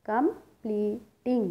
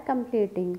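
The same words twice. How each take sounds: First: Completing very slowly in three parts, com, ple, ting; syllable by syllable. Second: Said in the usual way. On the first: Shown as a demonstration. Teacher shows three sounds, completing split syllable by syllable. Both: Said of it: "three sounds create हुई हैं".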